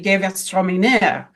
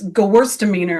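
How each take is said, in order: First: It is pronounced with a German-style pronunciation. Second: It is pronounced with an American English pronunciation. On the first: The speaker calls it right. "in France and Germany, you say" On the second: The speaker calls it wrong. "here, how do they say that? ... it just sounds so wrong"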